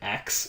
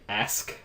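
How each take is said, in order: First: The word ends with a k then s sound. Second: The word ends with an s then k sound. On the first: The speaker calls it wrong. "I'll say axe all the time" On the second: The speaker calls it right. "Instead of saying ask"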